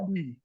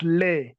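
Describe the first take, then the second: First: The vowel sounds like 'ee'. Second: The vowel sounds like 'e' in bed. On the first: The speaker calls it wrong. "It is not Lee" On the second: The speaker calls it right. "It is Le"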